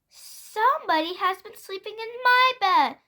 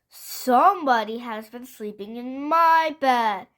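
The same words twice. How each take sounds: First: It is said in a middle-sized voice. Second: It is said in a great big voice.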